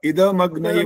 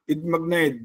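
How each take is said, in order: First: The 'd' sound is said fully with a vowel. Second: The 'd' sound is clipped without a vowel. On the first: The speaker calls it right. "इद पूरा इदमग्न ये बोलना होता है" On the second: The speaker calls it wrong. "द हलंत हो रहा है बाकायदा"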